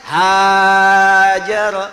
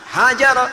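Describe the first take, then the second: First: The first vowel is drawn out long. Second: The first vowel is short and quick. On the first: "menggunakan alif" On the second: "kata kerjanya menggunakan cepat"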